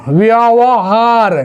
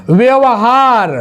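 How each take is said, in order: The two takes are said the same way.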